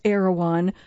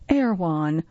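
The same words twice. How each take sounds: First: The name is said with three full syllables. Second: The name is squeezed into two syllables, surfer-style.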